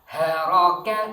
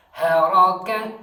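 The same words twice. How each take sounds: First: Haraka with a light breathy H, loud and even; contrast pronunciation. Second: Haraka with a heavy rasping throat H, loud and rising; drill pronunciation. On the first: (Haraka dengan H ringan berdesah) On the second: (Haraka dengan H tebal dari tenggorokan, keras) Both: Shown as a demonstration. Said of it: "Antara Hi dengan Hai beda".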